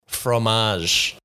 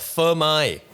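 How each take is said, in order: First: It is said with a French pronunciation. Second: It is said with a Vietnamese pronunciation. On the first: "followed by the French" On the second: "I'll do the Vietnamese pronunciation first"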